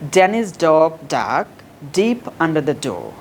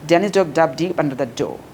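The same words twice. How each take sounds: First: The sentence is said slowly. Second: The sentence is said very fast. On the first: "প্রথমে slowly বলবা" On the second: "যত fast বলতে পারো"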